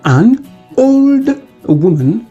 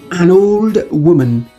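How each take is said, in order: First: The words are said separately, not joined. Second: The n runs straight into the o sound.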